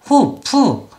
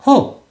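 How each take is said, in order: First: The word is said as two syllables. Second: The word is said as one syllable. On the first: The speaker calls it wrong. "호프 이음절 ... 소리를 내면 당연히 안 된다" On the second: The speaker calls it right. "한 박자로 소리를 내야"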